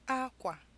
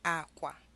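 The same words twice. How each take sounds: First: A high tone is followed by a low tone. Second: Both syllables have a low tone. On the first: It means cloth. "a high tone and a low tone" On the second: It means bed. "two low tones"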